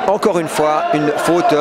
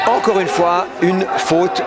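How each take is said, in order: Both takes have the same delivery.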